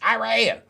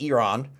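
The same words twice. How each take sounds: First: The word is said in an Americanized way. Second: The word is said in a standard way. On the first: The speaker calls it wrong. "I sound like a freaking MAGA" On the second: The speaker calls it right. "I'll say it properly from now on"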